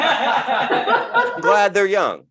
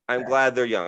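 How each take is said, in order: First: Slow, high gushing; mock enthusiastic declaration. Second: Said in the usual way. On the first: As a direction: overdo the gladness. Exaggerated first take.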